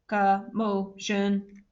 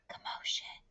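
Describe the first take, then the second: First: It is said in a flat, mechanical voice. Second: It is said in a soft whisper. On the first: "in a robot voice" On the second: "in a whisper voice"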